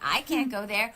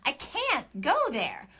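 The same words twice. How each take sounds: First: The word "I" carries the stress. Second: The word "can't" carries the stress. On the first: Someone else could go there, but not me. "like you could go there" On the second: Going there is not possible. "or emphasize the can't"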